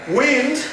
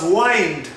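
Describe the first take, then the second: First: "wind" with short i, as in "win", pitched high; short-i sound. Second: "wind" as WYND, rhyming with "find"; long-i sound. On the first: Teacher contrasts pronunciations, "wind" with short i. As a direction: say "wind" like moving air. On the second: Teacher gives the other pronunciation, "wind" as WYND. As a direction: open "wind" into an "eye" vowel. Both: Shown as a demonstration. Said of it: "can also be pronounced as wind".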